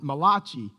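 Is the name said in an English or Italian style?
Italian. The name is said with an Italian-sounding pronunciation. The speaker calls it wrong. "this is the only Italian prophet"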